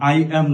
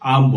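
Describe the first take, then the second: First: It is said as two full separate words. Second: It is said as one short contracted word. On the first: "আই অ্যাম না বলে" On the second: "আম বলছেন"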